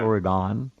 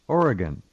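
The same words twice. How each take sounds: First: The last syllable does not sound like 'gun'. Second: The last syllable sounds like 'gun'. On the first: The speaker calls it wrong. "It's not Oregon or Aragon" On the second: The speaker calls it right. "it's spelled O R Y G U N, and that's how you pronounce it"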